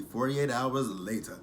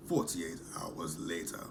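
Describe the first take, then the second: First: Said in the usual way. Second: Low, slow put-on announcer voice; time-card announcer. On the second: Recapper repeats the show's time jump to viewers, slow announcer voice. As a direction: read it like a slow, mock-dramatic caption.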